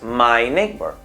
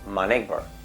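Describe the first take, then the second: First: The word 'my' is said in its full form. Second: The word 'my' is said in a weak, reduced form. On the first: The speaker calls it wrong. "ya no es my neighbor" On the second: The speaker calls it right. "digo my neighbor"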